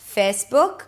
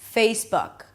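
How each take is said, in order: First: The first vowel is a plain 'eh' sound. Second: The first vowel is 'ay' with a y glide. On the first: The speaker calls it wrong. "Make sure you don't pronounce it as e" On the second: The speaker calls it right. "A is in day, fei... add a little y sound at the end"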